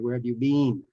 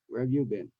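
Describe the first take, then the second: First: The vowel in 'been' is long, like 'bean'. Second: The vowel in 'been' is short, like 'bin'. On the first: The speaker calls it wrong. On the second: The speaker calls it right.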